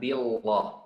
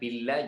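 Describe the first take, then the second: First: The L sound is heavy and thick. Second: The L sound is light and thin. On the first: The speaker calls it wrong. "jangan billah" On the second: The speaker calls it right. "Harus dibaca billah"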